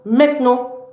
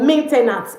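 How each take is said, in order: First: It is pronounced with French sounds throughout. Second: It is pronounced like the English word maintenance. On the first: The speaker calls it right. "It's maintenant" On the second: The speaker calls it wrong. "It's not maintenance"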